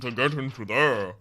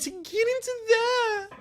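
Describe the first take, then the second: First: It is said in a lower, deeper voice. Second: It is said in a higher-pitched voice. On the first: "immediately go lower pitch to redeem myself" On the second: "when I go a little higher pitch"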